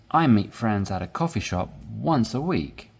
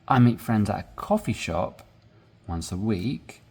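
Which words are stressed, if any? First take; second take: none; coffee shop. First: The words are stressed evenly throughout. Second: The words coffee shop are stressed.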